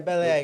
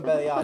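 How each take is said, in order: First: The second word sounds like 'ache'. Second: The second word sounds like 'arch'. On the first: "Yeah, belly ache" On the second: "call him belly arch. ... I changed some words"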